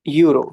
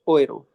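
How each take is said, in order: First: The word begins with a 'yoo' sound. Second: The word begins with an 'oy' sound. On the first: "but लिखा है यूरो" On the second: "but उसको प्रोनाउंस कैसे करेंगे? ओएरो"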